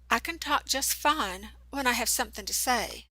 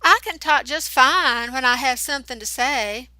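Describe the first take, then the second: First: Put-on Southern accent. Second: Hammed-up mimicry, louder and higher; mocking high imitation. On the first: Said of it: "did you hear that accent". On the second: Eric mocking Channy's words in a louder, higher falsetto. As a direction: parrot her in a silly mocking voice. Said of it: "pitched his voice up high to mock her". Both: A narrator's reading.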